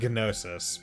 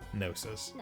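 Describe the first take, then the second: First: The initial G is pronounced before the n. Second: The initial G is silent, starting with n. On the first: "They're saying Gnosis" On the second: "I'm going to pronounce it as though I'm just saying gnome"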